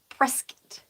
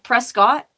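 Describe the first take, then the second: First: The name is pronounced in the local, reduced way. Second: The name is pronounced just as it is spelled. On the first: The speaker calls it right. "the folks who live there pronounce it Prescott" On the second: The speaker calls it wrong. "It looks like Prescott"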